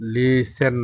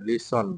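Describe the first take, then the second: First: The second syllable has a full 'e' vowel. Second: The second syllable has a short reduced vowel. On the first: The speaker calls it wrong. "লিসেন না, লিসেন হবে না" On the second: The speaker calls it right. "এটা কিন্তু লিসন উচ্চারণ"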